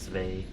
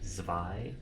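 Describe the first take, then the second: First: The vowel does not sound like 'eye'. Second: The vowel sounds like the word 'eye'. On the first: The speaker calls it wrong. "Not Zwei" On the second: The speaker calls it right. "As an I, the body part"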